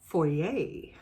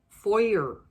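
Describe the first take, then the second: First: It is said the Canadian way. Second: It is said the American way.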